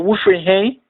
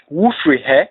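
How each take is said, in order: First: "Wofri he" run together, ending in a rising "hey"; alternative native pronunciation. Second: "Wofri he" run together, ending on a short open "heh"; native Twi pronunciation. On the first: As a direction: lift the last sound of "Wofri he" into "hey". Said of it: "it sounds more like". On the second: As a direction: end "Wofri he" on a quick falling "heh". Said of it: "When pronounced by a native Twi speaker, it sounds more like". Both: Shown as a demonstration.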